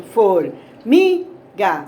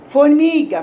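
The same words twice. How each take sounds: First: "Formiga" slowly split, MI punched; for-MI-ga with gaps, MI loudest; syllable by syllable. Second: Said in the usual way. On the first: Shown as a demonstration. Teacher showing the tonic syllable of "Formiga", MI stressed in slow pieces. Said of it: "Assim a gente descobre a sílaba tônica". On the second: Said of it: "Pode ser falando ou batendo palma".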